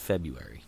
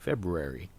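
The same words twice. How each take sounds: First: The first r after b is dropped. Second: The first r after b is pronounced. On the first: This is the speaker's usual pronunciation. "It's spelled February, right? ... But it's February" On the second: This is how other people say it. "I've heard people say February. It's really weird for me to try to say it that way"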